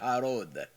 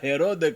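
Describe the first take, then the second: First: The name begins with an open 'a' vowel. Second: The name begins with an 'e' vowel. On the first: "આ યહૂદીઓનો ઉચ્ચાર છે" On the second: This is how it is said in Gujarati. "આપણે ગુજરાતીમાં ગુજરાતીમાં હેરોદ કહીએ છીએ"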